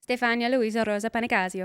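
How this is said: The name is said with Italian pronunciation.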